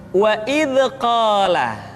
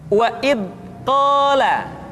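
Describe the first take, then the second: First: The dh sound bounces with an echoing release. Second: The dh sound is held back and stopped. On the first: "atau suara seringkali dipantulkan" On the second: "suara yang seringkali tertahan ketika diucapkan dalam keadaan sukun"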